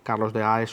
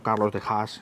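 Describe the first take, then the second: First: The surname is said with Spanish sounds. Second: The surname is said with Dutch sounds.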